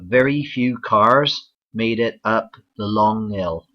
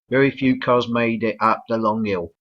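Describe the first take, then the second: First: It is said in a Bristol accent. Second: It is said in a London accent. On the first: "the southwest, for example in Bristol" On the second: "in uh, London English the L isn't even pronounced"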